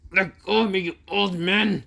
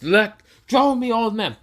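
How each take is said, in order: First: Angry protest. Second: High, loud enraged yell; furious shout. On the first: Boruto yelling at his father to let go, angry. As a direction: push him off with words. Son struggles in father's grip. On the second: Boruto yelling at his father before punching him, furious. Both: Acted.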